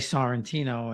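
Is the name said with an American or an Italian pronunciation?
American. The name is said with American English vowels. The speaker calls it wrong. "I say Sorrentino"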